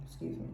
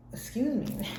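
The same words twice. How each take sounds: First: Soft, mumbled "Excuse me." under the breath; quiet excuse me. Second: Said in the usual way. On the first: Real, not acted. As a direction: mutter "Excuse me." almost to yourself. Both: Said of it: "That was three".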